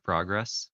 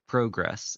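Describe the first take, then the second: First: It is said with a standard non-Canadian vowel. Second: It is said with a Canadian-style vowel. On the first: "instead of" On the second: "some Canadians"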